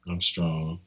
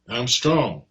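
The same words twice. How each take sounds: First: It is said flatly, without emotion. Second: It is said with strong, lively emotion. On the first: The speaker calls it wrong. "You don't say" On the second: The speaker calls it right. "notice the tone that I'm using"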